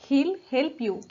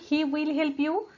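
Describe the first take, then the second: First: He will is contracted into one syllable. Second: He will is said as two full words. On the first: "He will चं contraction he'll" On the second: "किंवा he will help you"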